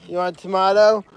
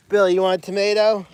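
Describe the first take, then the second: First: "tomato" said with an AH in the middle; tomato as "tomahto". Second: Said in the usual way. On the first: Real, not acted. Keeper offers Billy food, "tomato" pronounced to-MAH-to. Repeats offer with other pronunciation.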